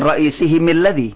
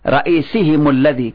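First: The linking vowel after him is i. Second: The linking vowel after him is u. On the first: The speaker calls it wrong. "Bukan ra'isihimil ladhi. Tidak" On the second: The speaker calls it right. "Kalau ra'isihim dibaca ra'isihimul ladhi"

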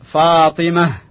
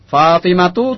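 First: The word ends with an h sound. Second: The word ends with a t sound and vowel. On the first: "Kalau kita matikan, maka dia berbunyi seperti ha" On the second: "tuh di situ ta' marbuto"

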